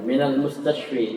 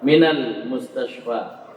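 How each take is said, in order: First: The last word ends in an 'ee' vowel. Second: The last word ends in a long 'a' vowel. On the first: The speaker calls it wrong. "Jangan rubah ya" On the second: The speaker calls it right. "tetap alif"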